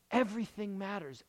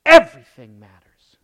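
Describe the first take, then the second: First: Said in the usual way. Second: Breathy hushed whisper on everything matters. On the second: Acted. Preacher hushing the congregation, whispered. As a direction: lean in and whisper it like a secret. Hushed point after long pause.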